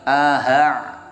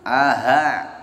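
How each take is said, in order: The two takes are said the same way.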